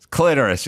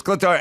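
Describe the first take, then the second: First: "Clitoris" as "CLIT-er-is"; pronunciation standoff. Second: "clitoris" as "cli-TOR-is"; insisted correction. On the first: Retelling the standoff with grandma, "Clitoris" as "CLIT-er-is". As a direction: stress the first syllable of "Clitoris". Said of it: "I was like". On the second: Retelling grandma's side of standoff, "clitoris" as "cli-TOR-is". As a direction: stress the middle syllable of "clitoris". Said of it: "she was like". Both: Retold or imitated.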